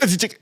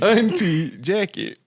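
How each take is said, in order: First: The two words are slurred into one. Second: The two words are said clearly apart. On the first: The speaker calls it wrong. "that's not one word" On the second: The speaker calls it right. "It's Auntie Jackie"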